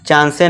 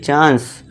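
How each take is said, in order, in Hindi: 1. शब्द के अंत में एक अतिरिक्त स्वर होता है। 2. शब्द s की ध्वनि पर खत्म होता है। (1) "नहीं" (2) "ई क्या है, साइलेंट है"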